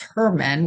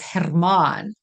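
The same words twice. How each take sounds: First: It is said with a plain English R. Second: It is said with a trilled R. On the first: "if you say that in English" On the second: "the South African accent, you you trill the R"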